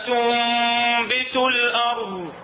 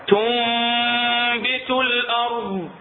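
The two takes are said the same way.

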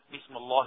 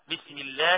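First: The L in Allah sounds heavy and thick. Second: The L in Allah sounds light and thin. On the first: The speaker calls it wrong. "ما ينفعش نقول" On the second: The speaker calls it right. "مرققة"

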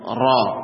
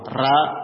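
First: The ra is pronounced thick and heavy. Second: The ra is pronounced thin and light. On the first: "Tafkhim itu seperti ini" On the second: "kalau ra ini tipis"

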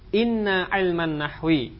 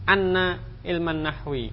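First: The first word begins with an 'i' vowel. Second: The first word begins with an 'a' vowel. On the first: The speaker calls it right. "dibaca dengan kasrah" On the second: The speaker calls it wrong. "tidak boleh"

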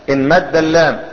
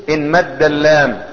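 No difference in how they are said.

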